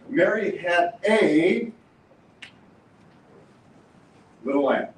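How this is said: The stress is on a.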